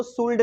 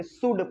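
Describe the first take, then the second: First: शुल्ड with the L sounded; wrong reading with L. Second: शुड with no L sound; silent L. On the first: Teacher shows the misreading शुल्ड, L pronounced. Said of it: "इसको शुल्ड नहीं पढ़ेंगे". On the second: Teacher shows the correct reading शुड, L silent. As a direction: leave the L out, शुड. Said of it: "शुड पढ़ेंगे". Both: Shown as a demonstration.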